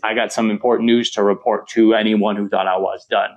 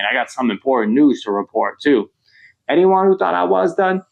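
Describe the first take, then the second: First: It runs on with no pause after "report to." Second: There is a pause after "report too."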